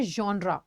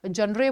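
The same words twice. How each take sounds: First: "जॉनरा" ending in an open -raa; correct pronunciation. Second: "जॉनरे" ending in an -ay sound; common mispronunciation. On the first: Teacher correcting students on genre, "जॉनरा" with final -raa. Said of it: "इसको बोलते हैं जॉनरा". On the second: Teacher quoting many people's mistake, mispronounced "जॉनरे". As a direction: say "जॉनरे" as jon-RAY, with final -re. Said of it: "बहुत सारे लोग जॉनरे बोलते हैं". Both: Shown as a demonstration.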